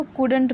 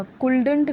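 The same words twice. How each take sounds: First: कुडंट with silent l, kood-unt; correct couldn't. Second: कुल्डंट with the l sounded, koold-unt; wrong couldn't. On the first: Teacher showing students the right reading, silent l. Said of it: "इसको कुडंट पढ़ते हैं". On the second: Teacher telling students what to avoid, mispronounced. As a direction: say कुल्डंट with an audible l. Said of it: "कुल्डंट नहीं पढ़ना है". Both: Shown as a demonstration.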